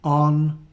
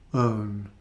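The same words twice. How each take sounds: First: "On" with a short, open /ɒ/ as in hot; short o vowel. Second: "own" with the gliding /əʊ/ as in go, held longer; long o diphthong. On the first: Teacher modelling the short o for learners, careful and clear. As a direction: say "On" crisply with the short o, clipped vowel. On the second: Teacher modelling the long o for learners, careful and clear. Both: Shown as a demonstration. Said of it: "practice these sounds and spellings".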